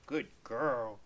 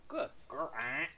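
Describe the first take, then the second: First: Said in the usual way. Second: Soft pet praise. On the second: Real, not acted. Praising Smudge after let go.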